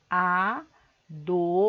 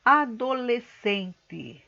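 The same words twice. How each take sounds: First: "adolescente" broken into a, do, les, cen, te with long pauses; syllable by syllable. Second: "adolescente" slow but joined, every syllable distinct; deliberate enunciation. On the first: Teacher having pupils count syllables, "adolescente" fully separated. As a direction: say "adolescente" as five isolated, drawn-out syllables. Shows word split into syllables. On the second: Teacher introducing the word to pupils, "adolescente" slowly and distinctly. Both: Shown as a demonstration.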